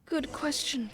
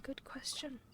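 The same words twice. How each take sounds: First: Said in the usual way. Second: Softly whispered aside. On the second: Real, not acted. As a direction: breathe it without voice. Repeats the line in a whisper.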